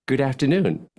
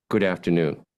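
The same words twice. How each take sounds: First: Smiling good afternoon; happy tone. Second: Lower, sad good afternoon. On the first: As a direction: say it with a smile in the voice. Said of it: "Make a happy face and say". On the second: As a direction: let it drop, with a sad face. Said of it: "now make a sad face". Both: Shown as a demonstration.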